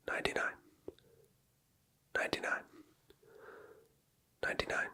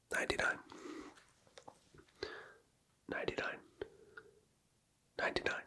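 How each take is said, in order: Both takes have the same delivery.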